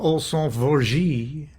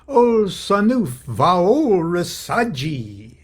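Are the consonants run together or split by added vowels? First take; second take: run together; added vowels. First: The consonants are run together without extra vowels. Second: Extra vowels split the consonants into more syllables. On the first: "instead of" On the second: "it rolls off the tongue better. Sounds almost Italian"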